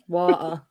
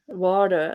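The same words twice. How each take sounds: First: The T in the middle is clearly pronounced. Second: The T in the middle sounds like a D. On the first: "I pronounce the T when I say it" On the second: "like with a D"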